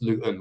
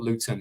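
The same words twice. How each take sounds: First: The middle T is dropped. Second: The middle T is clearly pronounced. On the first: The speaker is a local. The speaker calls it right. "We don't have a T in it the way you say it locally" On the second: Someone is hiding where they come from. The speaker calls it wrong. "it's not Luton"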